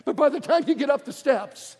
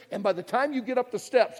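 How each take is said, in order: First: "by" punched, line said louder and higher; stress on by. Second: Said in the usual way. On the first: Shown as a demonstration. Preacher restating the line to the crowd, pressing "by". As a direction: lean hard on "by the time".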